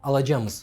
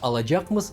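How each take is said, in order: First: The k sound before the ending is dropped. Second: The k sound before the ending is pronounced. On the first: "глухие согласные «к» ... могут опускаться" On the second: "вместо «alacakmız»"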